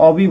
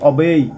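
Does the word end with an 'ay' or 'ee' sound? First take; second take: ee; ay. First: The word ends with an 'ee' vowel. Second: The word ends with an 'ay' vowel. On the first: The speaker calls it wrong. "অনেকে অবি বলে, অবি না" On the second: The speaker calls it right. "এর pronunciation হবে অবেই"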